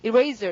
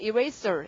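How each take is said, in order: First: The middle consonant is a z sound. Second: The middle consonant is an s sound.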